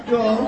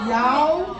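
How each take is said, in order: First: "Y'all" drawn out Southern American style, one syllable. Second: "y'all" tried again in a Southern American drawl, rising. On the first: Southern American "Y'all" for the congregation. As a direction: say "Y'all" like a Texan. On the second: Trying "y'all" again in Southern American for the congregation. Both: Shown as a demonstration. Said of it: "did that sound American?".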